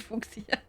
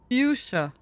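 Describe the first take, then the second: First: It is pronounced the German way, like fox. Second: It is pronounced the English dictionary way. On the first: The speaker calls it wrong. "I would say Fuchsia ... I read it just in German in this case" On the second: The speaker calls it right. "can I try again?"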